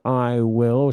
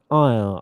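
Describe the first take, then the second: First: Both words are said fully and separately. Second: The two words are joined into one syllable. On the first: "It's hard to say I will" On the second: "Say I'll"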